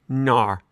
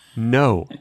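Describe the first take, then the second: First: The word sounds like an Australian 'nar'. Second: The word sounds like a plain rounded 'no'.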